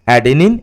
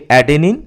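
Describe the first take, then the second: Both takes have the same delivery.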